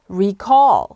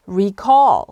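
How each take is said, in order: First: The stress is on the second syllable. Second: The same.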